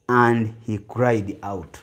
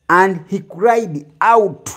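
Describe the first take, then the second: First: Said in the usual way. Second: Each word of "And he cried out." drawn out, higher and slow; slow emphatic reading. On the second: Shown as a demonstration. Preacher stressing "And he cried out." for the congregation. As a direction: lean hard on "And he cried out." as a key verse. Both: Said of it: "osaze ku kagambo".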